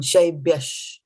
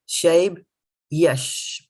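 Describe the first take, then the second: First: The word is said as one joined unit. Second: The word is split into two separate parts. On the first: "this D and Y will come together" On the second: "when you're breaking it down"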